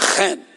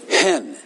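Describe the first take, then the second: First: It starts with a harsh guttural throat sound. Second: It starts with a soft breathy h sound. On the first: The speaker calls it right. "It's a guttural" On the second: The speaker calls it wrong. "So it's not a breathy hen"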